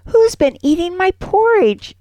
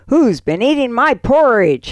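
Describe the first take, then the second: First: It is said in a high, squeaky voice. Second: It is said in a deep, roaring voice.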